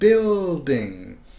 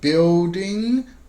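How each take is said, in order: First: The word has a full dark L. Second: The L sound is weak or missing. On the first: The speaker calls it right. "but building" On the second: The speaker calls it wrong. "Not building"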